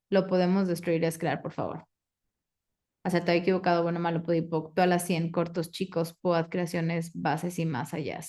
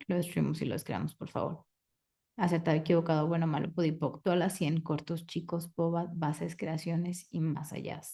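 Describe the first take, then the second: First: Quick, even ritual recitation, dropping at the end; rote clearing statement. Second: The formula murmured, softer, fading almost to a whisper; soft rote clearing statement. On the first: Facilitator recites the clearing statement to the class, brisk rote chant. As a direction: rattle off the formula by heart. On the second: Facilitator closes the question with a hushed rote clearing. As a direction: let the ritual words sink away quietly. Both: Acted.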